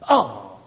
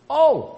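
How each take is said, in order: First: It is said in a grudging, reluctant tone. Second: It is said in a cheerful, willing tone.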